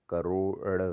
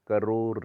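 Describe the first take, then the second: First: करोड़ ending in a curled-tongue d; correct ड़. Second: करोड़ ending in plain r, "karor"; wrong r. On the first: Teacher correcting it, करोड़ with retroflex ending. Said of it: "होता है". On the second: Teacher showing the error, करोड़ with r ending. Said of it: "नहीं होता". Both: Shown as a demonstration.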